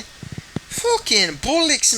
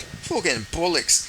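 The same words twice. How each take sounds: First: Irish, very high and slow on "bollocks"; "bollocks" drawn out high in Irish brogue; Conor McGregor accent. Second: "Fucking bollocks" slow, Irish, near own pitch; mild Irish take on "Fucking bollocks"; lightly Irish "bollocks", slow; Conor McGregor accent. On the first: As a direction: stretch "Fucking bollocks" in a mock Irish whine. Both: Pretend. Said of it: "I love trying to do a Conor McGregor accent".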